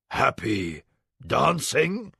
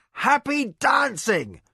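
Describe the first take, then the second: First: Puzzled. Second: High, slow giddy delirium; giddy from blood loss; delirious. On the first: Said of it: "he quoted, puzzled". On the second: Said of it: "turned drunken with blood loss". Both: A narrator's reading.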